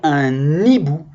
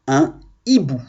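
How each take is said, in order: First: The n sound is linked onto hibou. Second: The n sound is kept apart from hibou. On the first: The speaker calls it wrong. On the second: The speaker calls it right.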